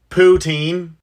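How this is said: It is said with an English Canadian pronunciation.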